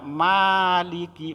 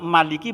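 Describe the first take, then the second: First: The first vowel is drawn out long. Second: The first vowel is said short. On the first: "baca panjang" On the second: "bacaannya pendek"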